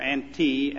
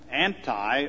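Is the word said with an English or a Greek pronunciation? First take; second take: Greek; English. First: It is said with a Greek pronunciation. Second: It is said with an English pronunciation.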